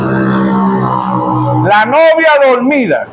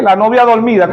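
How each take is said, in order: First: "La novia dormida" dragged out very slow and low, half asleep; mock sleepy drawl. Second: Said in the usual way. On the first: Shown as a demonstration. Preacher mimicking the sleeping bride, slow drowsy drawl. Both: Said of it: "¿cómo es eso?".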